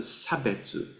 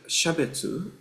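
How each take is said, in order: First: The word begins with an 's' sound. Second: The word begins with an 'sh' sound. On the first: It is the everyday word for discrimination. "In colloquial Japanese, this word shabetsu is pronounced as a sabetsu" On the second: It is the Buddhist term for individuality. "this word shabetsu"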